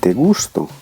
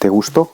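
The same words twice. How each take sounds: First: The stress is on the first syllable of gusto. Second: The stress is on the last syllable of gusto. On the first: "ce mot se termine par une voyelle. La syllabe tonique, c'est donc celle-ci" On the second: "le petit tilde là? Ça veut dire que la syllabe tonique, c'est donc celle-là"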